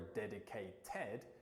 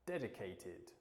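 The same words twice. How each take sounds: First: The ending is said with an 'ed' sound. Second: The ending is said with an 'id' sound. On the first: The speaker calls it wrong. "instead of saying" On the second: The speaker calls it right. "we say"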